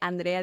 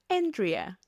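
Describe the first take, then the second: First: The name is said with a Spanish pronunciation. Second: The name is said with an English pronunciation. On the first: This is how the name is normally said. "en vez de Andrea" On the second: This is how non-Spanish speakers say it. "dicen Andrea"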